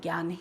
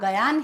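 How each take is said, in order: First: The 'gy' cluster is said as one syllable. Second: A separate 'ga' syllable comes before 'yaan'. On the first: The speaker calls it right. "आप ज्ञान बोलेंगे तो ज्ञान ही लिखेंगे" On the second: The speaker calls it wrong. "गयान आप बोलेंगे तो आप गयान ही लिखेंगे"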